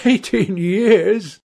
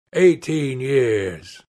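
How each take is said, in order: First: High, drawn-out exultant echo; touch of triumph. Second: Said in the usual way. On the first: A narrator's reading. Accused man seizing on the answer, triumphant. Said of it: "a touch of triumph in his voice".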